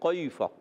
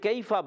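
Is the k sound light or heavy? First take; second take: heavy; light. First: The k sound is heavy and thick. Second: The k sound is light and thin. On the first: The speaker calls it wrong. "کیفا غلط" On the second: The speaker calls it right. "باریک رکھیں گے"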